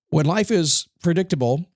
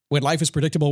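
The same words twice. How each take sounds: First: It is said slowly and deliberately. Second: It is said at a normal pace.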